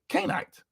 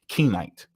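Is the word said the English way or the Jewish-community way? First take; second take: Jewish-community; English. First: It is said with the Jewish-community pronunciation. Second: It is said with the usual English pronunciation. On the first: "But they actually say Canaanite" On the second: "we speak English. So we're going to say Kenite"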